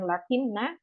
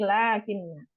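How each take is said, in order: First: The first vowel is short. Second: The first vowel is held long. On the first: The speaker calls it wrong. "Jangan lakinna" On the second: The speaker calls it right. "Bacanya dua harokat"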